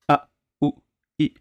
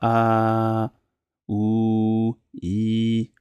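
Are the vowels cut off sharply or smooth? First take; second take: cut off; smooth. First: Each vowel starts with a sharp throat catch. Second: The vowels flow smoothly without a catch. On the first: The speaker calls it right. "On coupe" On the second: The speaker calls it wrong. "Il fait pas"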